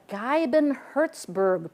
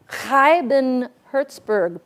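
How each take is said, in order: First: The name is said with English pronunciation. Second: The name is said with Dutch pronunciation.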